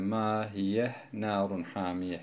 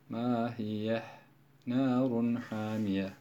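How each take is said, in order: First: The words run on without a pause. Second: A short pause follows the first word. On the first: "Birinci okuyuşta izhar ile okuyoruz" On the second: "Küçük böyle latif bir sekte"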